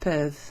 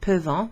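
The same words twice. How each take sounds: First: The final nt sound is silent. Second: The final nt sound is pronounced. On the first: The speaker calls it right. "as if the N T were not there" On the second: The speaker calls it wrong. "we don't pronounce it peuvent"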